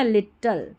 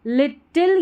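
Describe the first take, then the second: First: लिटल ending in "-tal"; second accepted variant. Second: लिटिल ending in "-til"; short i in the last syllable of लिटिल; first accepted variant. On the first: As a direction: say लिटल as lit-tul. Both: Shown as a demonstration. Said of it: "दोनों तरीके से pronounce कर सकते हैं".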